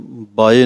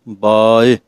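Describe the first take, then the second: First: The first vowel is kept short. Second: The first vowel is drawn out longer. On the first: The speaker calls it wrong. "ਬਾਏ ਨਹੀਂ ਕਹਿਣਾ" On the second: The speaker calls it right. "ਕੰਨੇ ਨੂੰ ਥੋੜ੍ਹਾ ਜਿਹਾ ਲਮਕਾ ਕੇ"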